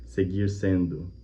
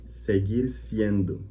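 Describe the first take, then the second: First: "seguir sendo" slowed, Portuguese vowels; Portuguese version. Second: "Seguir siendo" very slow, each syllable spelled out; slow Spanish "Seguir siendo" with a falling end; Spanish demo. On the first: Teacher asks Portuguese speakers about the phrase, slowly. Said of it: "dizer, por exemplo". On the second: Teacher repeats the Pope's phrase slowly for students. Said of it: "a gente utiliza esse seguir em espanhol". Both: Shown as a demonstration.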